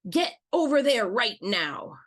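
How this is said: The tone is very harsh and stern. "let's say it in a red tone of voice"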